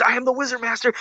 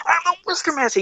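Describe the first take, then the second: First: Slightly hammed-up Wizard Master, higher; lightly voiced movie hero declaring himself; higher mock proclamation. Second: Much higher mock heroic proclamation; strained, high-pitched movie hero imitation; Wizard Master. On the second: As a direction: escalate into a high, hammed-up declaration. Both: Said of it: "you remember, he's".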